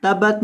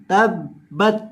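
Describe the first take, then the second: First: तबत with a single light b, no doubling; wrong pronunciation. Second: तब्बत with the b held and pressed hard; doubled b. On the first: Teacher shows students the wrong reading, single b. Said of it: "तबत नहीं". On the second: Teacher shows students the right reading with firm doubled b. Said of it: "तबत नहीं, तब्बत". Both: Shown as a demonstration.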